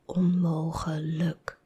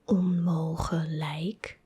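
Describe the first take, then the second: First: The last syllable is a short, reduced 'luk'. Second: The last syllable rhymes with English 'like'. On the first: The speaker calls it right. "but onmogelijk, luk, not like" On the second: The speaker calls it wrong. "So it's not onmogelijk"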